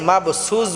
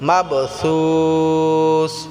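First: The consonants sound like a plain 's'. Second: The consonants sound like a light 'th'. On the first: The speaker calls it wrong. "অনেকে আছি মাবসুস বলি, সিন উচ্চারণ হবে না" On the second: The speaker calls it right. "এখানে সা উচ্চারণ করতে হবে, পাতলা করতে হবে"

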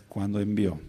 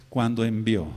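No difference in how they are said.

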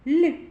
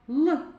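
First: The l sound is soft, palatalized. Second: The l sound is hard, not palatalized. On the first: "вимовляється м'яко" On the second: "звучить твердо"

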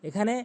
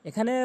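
Both takes have the same delivery.

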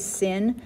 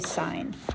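First: The vowel is short, rhyming with 'fin'. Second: The vowel is long, rhyming with 'fine'. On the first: The speaker calls it wrong. "Notice we don't say sin" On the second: The speaker calls it right. "we still say sine"

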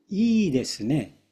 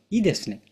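First: The first vowel is held long. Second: The first vowel is cut short. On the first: The speaker calls it right. "いいが伸ばしますでしょ。" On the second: The speaker calls it wrong. "正しいではないです。"

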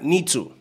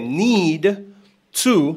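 First: The two words merge into one run of sound. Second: The two words are said fully and separately. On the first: The speaker calls it right. "será" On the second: The speaker calls it wrong. "en vez de"

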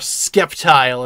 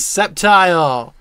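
First: The name begins with an 'sk' sound. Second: The name begins with a plain 's' sound. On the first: The speaker calls it wrong. "as some people incorrectly pronounce it" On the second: The speaker calls it right. "This is Sceptile"

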